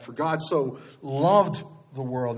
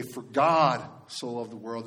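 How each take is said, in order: First: "loved" stretched out slowly and set apart; slow, deliberate emphasis on "loved"; stress on LOVED. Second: GOD drawn out, the rest quicker after it; slow, weighty emphasis on "God"; stress on GOD. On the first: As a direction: lean long on the word loved. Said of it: "emphasize each word". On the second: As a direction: lean long on the word God. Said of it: "and emphasize". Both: Shown as a demonstration.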